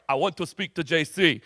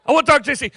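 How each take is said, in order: First: Low, soft attempt at a Russian accent; bad Russian accent. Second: Retried Putin voice. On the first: Putin asking to see the pastor, bad Russian accent. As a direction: lightly put on a horrible Russian accent. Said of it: "it's a horrible Russian accent". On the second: Acted. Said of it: "he goes".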